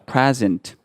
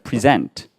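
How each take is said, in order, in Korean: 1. 강세는 첫 번째 음절에 있어요. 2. 강세는 두 번째 음절에 있어요. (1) "액센트가 앞에 들어가서" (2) "뒤에 준다고 했죠"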